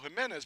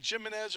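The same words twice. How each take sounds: First: The name has a Spanish pronunciation. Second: The name has an American English pronunciation. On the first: "or do I go" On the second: "do I say it American"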